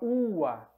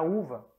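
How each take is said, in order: First: The middle consonant sounds like a w. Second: The middle consonant sounds like a v. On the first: This is how a Roman said it. "Ele falava ua" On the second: This is the later, modern pronunciation. "para uva"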